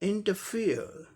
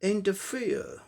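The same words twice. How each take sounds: Both takes have the same delivery.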